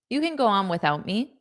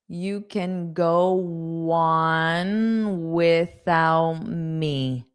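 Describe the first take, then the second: First: The sentence is said quickly at natural speed. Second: The sentence is said slowly and carefully. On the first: "That was natural" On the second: "So that's slow"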